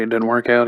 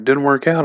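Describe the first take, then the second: First: Said in the usual way. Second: Mildly incredulous retort, rising at the end; incredulous echo. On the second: Retold or imitated. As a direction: toss the words back as a question. Disbelieving echo of friend's words.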